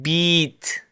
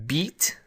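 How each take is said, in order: First: The vowel is held noticeably longer than usual. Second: The vowel has its normal English length.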